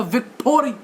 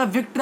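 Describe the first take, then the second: First: "विक्टोरी" with a full "toh" syllable inserted; mispronounced victory. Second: Said in the usual way. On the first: Shown as a demonstration. Teacher mimicking a student misreading a new word, mispronounced "विक्टोरी". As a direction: misread it as "विक्टोरी", three drawn-apart syllables vik-to-ree. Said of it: "ये शब्द ठीक नहीं है". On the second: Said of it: "मैंने बोला विक्ट्री".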